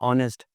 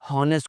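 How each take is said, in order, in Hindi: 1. शुरू की 'h' आवाज़ छोड़ दी जाती है। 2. शुरू में 'h' की आवाज़ बोली जाती है।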